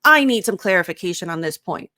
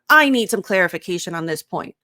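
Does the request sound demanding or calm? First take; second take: demanding; demanding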